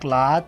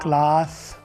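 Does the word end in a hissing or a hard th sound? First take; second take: hard th; hissing. First: The word ends in a hard th sound. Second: The word ends in a hissing sound. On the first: The speaker calls it wrong. "क्लाथ नहीं बोलेंगे, थे नहीं बोलेंगे, थे गलत है" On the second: The speaker calls it right. "आखिर में वो सा होना चाहिए"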